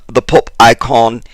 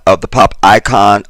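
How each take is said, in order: First: Fake British accent. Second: Said in the usual way. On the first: Host trying out a fake British accent on the pop icon. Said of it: "I may use my fra-, fake British accent". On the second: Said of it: "fake British accent".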